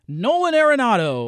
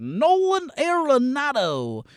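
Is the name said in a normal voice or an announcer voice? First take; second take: normal; announcer. First: It is said in a plain, normal voice. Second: It is said in a cheesy announcer voice.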